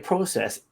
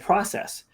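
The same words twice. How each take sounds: First: It is said the Canadian way. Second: It is said the American way.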